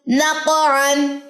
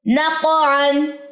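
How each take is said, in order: First: नक़अन repeated very slowly, the क़ bounced; slow Quranic recitation. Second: नक़अन stretched very slowly with a bouncing क़; slow Quranic recitation. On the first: Tutor repeats the word for students, very slow. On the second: Tutor recites the word for students, very slow. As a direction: draw out नक़अन slowly, echoing the क़. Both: Shown as a demonstration. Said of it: "कलकला भी दुरुस्त करवाना है".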